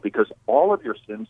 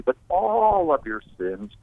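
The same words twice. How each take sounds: First: Said in the usual way. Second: "all" lifted high and slowed down; slow emphatic "all of your sins"; stress on all. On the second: Real, not acted. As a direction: lean hard on "all", slowly. Repeats phrase to emphasize all.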